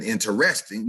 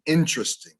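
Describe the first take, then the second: First: INTERESTING as in-ter-EST-ing; wrong stress. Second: INTERESTING as IN-trist-ing; correct stress. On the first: Diction teacher following through the error, wrong stress. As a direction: hit REST in interesting. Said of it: "You don't have". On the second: Diction teacher following through the correct form, correct stress. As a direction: hit IN and squeeze interesting short. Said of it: "You have an interest". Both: Shown as a demonstration.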